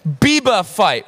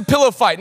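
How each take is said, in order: First: Imitating a toddler saying "Biba fight" for pillow fight; "Biba fight" with a B for the P and the L dropped; toddler talk. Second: Said in the usual way. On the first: Dad imitating his toddler asking for a "Biba fight". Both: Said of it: "Now, she says".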